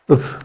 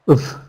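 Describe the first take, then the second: First: It is reduced to a short weak 'uv'. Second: It is reduced to a short weak 'uv'.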